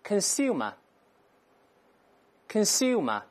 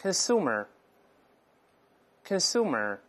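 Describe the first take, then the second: First: Consumer with the yoo sound, no r; British pronunciation. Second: Consumer with a plain oo and a curled r, slowly; American pronunciation. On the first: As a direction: say consumer the British way, kən-SYOO-mə. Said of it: "所以英国人这么读这个词". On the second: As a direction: say consumer the American way, kən-SOO-mer, drawn out. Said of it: "所以在美音中这么读". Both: Shown as a demonstration.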